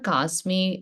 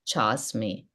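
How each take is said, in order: First: The word starts with a k sound. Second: The word starts with a ch sound. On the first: The speaker calls it wrong. "That is not Kasmi" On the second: The speaker calls it right. "it's Chasmi"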